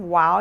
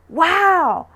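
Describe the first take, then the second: First: The pitch is flat with little energy. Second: The pitch swings widely with strong energy. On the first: The speaker calls it wrong. "Instead of wow" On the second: The speaker calls it right. "Accentuated intonation, make it extra emphatic"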